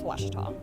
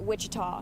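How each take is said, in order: First: The first syllable sounds like 'wash'. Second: The first syllable sounds like 'wich'. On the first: This is the proper way to say it. The speaker calls it right. "but really, it's Washita" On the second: This is how people commonly say it. The speaker calls it wrong. "Back in Texas, everybody pronounces it Wichita"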